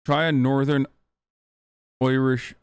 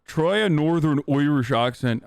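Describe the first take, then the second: First: Said in the usual way. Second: Rough, half-hearted stab at a Northern Irish accent; mock Northern Irish accent. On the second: Shown as a demonstration. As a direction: try a Northern Irish accent with Oirish vowels.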